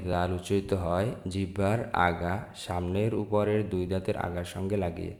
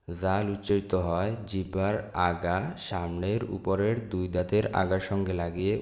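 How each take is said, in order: Both takes have the same delivery.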